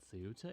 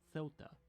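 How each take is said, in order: First: The name is said with an English pronunciation. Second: The name is said with a local Spanish pronunciation. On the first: "I might be pronouncing it Ceuta in English" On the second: "most of the locals here might pronounce it more like Ceuta"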